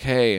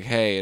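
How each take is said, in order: First: Casual greeting at usual pitch; lightly voiced horse. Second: Lightly voiced woman's reply. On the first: Horse greeting the woman, lightly voiced hello. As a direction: toss out the horse's hello, barely acted. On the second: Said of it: "and she's like".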